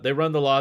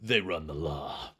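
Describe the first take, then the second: First: It is read in an ordinary speaking voice. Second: It is read in a dramatic movie-trailer voice.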